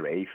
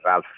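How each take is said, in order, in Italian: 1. Il nome si pronuncia 'rayf', senza la L. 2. Il nome si pronuncia 'ralf', con la L. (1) "però si dice Rafe" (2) "che tutti conosciamo come Ralph Fiennes"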